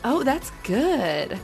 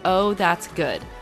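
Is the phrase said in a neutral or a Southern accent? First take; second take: Southern; neutral. First: It is said in a cute Southern accent. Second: It is said in a plain, neutral accent.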